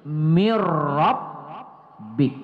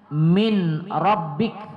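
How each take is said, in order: First: The n merges into a doubled r sound. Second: The n sound is clearly pronounced before the r. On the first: "seperti hilang suara nun itu ya" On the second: "Contohnya min rabbik"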